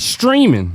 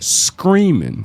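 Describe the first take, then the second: First: The word begins with a clear 'str' sound. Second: The word begins with an 'scr' sound. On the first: "Not streaming" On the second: "He said screaming"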